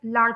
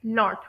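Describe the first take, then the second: First: लाट with an open ah vowel; American pronunciation. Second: लॉट with a short rounded o; British short o. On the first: Teacher giving an example word, American pronunciation of लाट. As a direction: say "लाट" American style, like "laht". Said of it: "American English में इस word को". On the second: Teacher giving an example word, British short o in लॉट. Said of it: "short ओ की sound आती है". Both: Shown as a demonstration.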